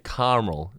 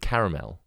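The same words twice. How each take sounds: First: It is said with an American pronunciation. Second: It is said with a British pronunciation. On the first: "how they say caramel" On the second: "instead of caramel"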